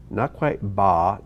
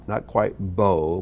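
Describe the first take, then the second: First: "ba" said slowly, not fully ah; slow, careful "ba" drifting toward o; in-between vowel. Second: "bo" said slowly, not fully oh; slow, careful "bo" drifting toward ah; in-between vowel. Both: Shown as a demonstration. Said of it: "but ba, bo".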